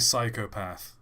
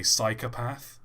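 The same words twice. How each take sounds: First: "psychopath" with a full "oh" in the middle; British pronunciation. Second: "psychopath" with a short "uh" in the middle. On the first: Explaining what actors avoid, "psychopath" with a clear middle "oh". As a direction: say "psychopath" as psy-koh-path. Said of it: "Neither of them say psychopath". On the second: Explaining how actors say it, "psychopath" with a weak middle "a". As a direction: say "psychopath" as psy-kuh-path. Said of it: "like, with an A". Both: Shown as a demonstration.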